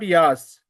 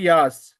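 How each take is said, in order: First: The two letters are blended into one syllable. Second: The same.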